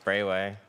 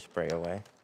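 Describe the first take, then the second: First: The name is said with two syllables. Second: The name is said with three syllables. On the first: The speaker calls it right. "I think it's Sprayway" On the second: The speaker calls it wrong. "I used to say Sprayaway"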